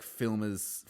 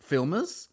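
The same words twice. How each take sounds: First: Said in the usual way. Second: Incredulous question. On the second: Shown as a demonstration.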